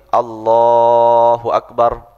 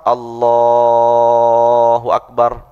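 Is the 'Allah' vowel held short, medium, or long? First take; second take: short; medium. First: The vowel in Allah is held two beats. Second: The vowel in Allah is held four beats.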